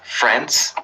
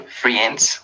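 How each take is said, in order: First: The letter i is silent in the vowel. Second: The letter i is sounded in the vowel. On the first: The speaker calls it right. "We say friends" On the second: The speaker calls it wrong. "some of you said like friends with letter I"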